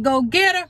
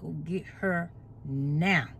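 First: Higher and louder, "get" punched hard; emphatic command. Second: Low, slow and soft, every word weighted; emphatic God voice. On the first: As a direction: bark out God's order with force. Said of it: "he put emphasis on something". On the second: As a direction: deliver God's command deep and slow. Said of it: "when he put emphasis on". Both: Retold or imitated.

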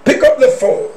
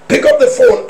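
First: Said in the usual way. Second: Much higher, insistent push; inner voice urging. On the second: Retold or imitated. Preacher voicing the urge to answer the phone, high. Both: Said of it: "repeated line".

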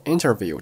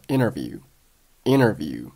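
First: Said in the usual way. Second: "interview" said as inner-view; dropped t. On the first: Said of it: "interview这个单词". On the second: Shown as a demonstration. Teacher demonstrates silent t, "interview" as inner-view. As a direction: leave the t out of "interview". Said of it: "t并没有爆出来".

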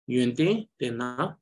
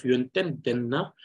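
First: "yuente, tena" with the final n of the first word softened away; smooth transition. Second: "yuenten, tena" with a full n and a sharp break; over-emphasized, unnatural flow. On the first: Teacher shows a smoother link between words, lightly stressed. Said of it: "trying to make the sound more smoother". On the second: Teacher shows the unsmooth reading to avoid, over-emphasized. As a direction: hit the end of "yuenten", then stop before "tena". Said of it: "it becomes a very sharp pause". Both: Shown as a demonstration.

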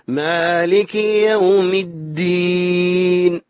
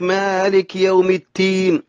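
First: Slow recitation with voiced d in الدين; correct dal. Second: التين with t in place of d; d turned to t. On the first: Shown as a demonstration. Teacher shows correct verse, slow chant with d in الدين. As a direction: draw out الدين, starting on a firm d. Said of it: "الدال والتاء قريبة المخرج". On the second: Retold or imitated. Teacher mimics a slip to correct it, t in التين. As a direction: mispronounce الدين as التين, with a t. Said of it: "لا، ما هو تين".

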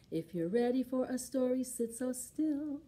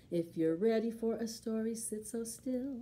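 No difference in how they are said.

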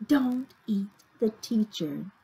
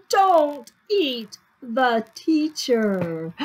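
First: Said in the usual way. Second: Slow, word-by-word insistence; emphatic rule. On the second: A narrator's reading. Teacher telling children not to eat her, emphatic. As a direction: space out each word firmly.

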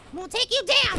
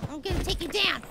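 First: Threat in full voice; firmer threat. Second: Soft, low threat to the opponent. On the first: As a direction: declare it openly to the opponent. Repeats threat, fuller voice. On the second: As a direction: threaten under your breath. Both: Real, not acted.

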